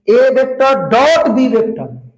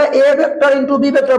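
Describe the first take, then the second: First: Slow, with stress on डॉट; correct reading. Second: Mock the wrong reading "A vector into B vector", higher; mocking wrong version. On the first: Teacher showing students the right way, stress on डॉट. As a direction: hit डॉट clearly, unhurried. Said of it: "इसको हम डॉट बोलेंगे". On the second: Teacher mocking the wrong way to read it, higher. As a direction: say it as the mistake he would punish. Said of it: "बड़ी मार मारेंगे". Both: Shown as a demonstration.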